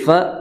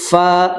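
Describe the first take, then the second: First: The f sound is cut short without breath. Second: The f sound is drawn out with flowing breath. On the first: The speaker calls it wrong. "Jangan fal fa fal fa" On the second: The speaker calls it right. "Fa mengalirkan dulu"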